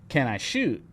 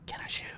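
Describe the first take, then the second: First: It is said in a normal voice. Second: It is said in a whisper.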